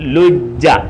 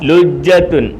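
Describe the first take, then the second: First: The word ends at '-ja' with no final ending. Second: The word ends with a full '-tun' ending. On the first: The reading stops on this word. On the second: The reading continues without stopping.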